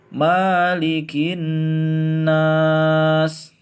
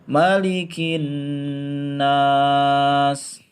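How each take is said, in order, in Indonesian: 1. Vokal setelah m dibaca panjang. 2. Vokal setelah m dibaca pendek. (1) "dibaca panjang" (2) "maliki adalah dibaca pendek"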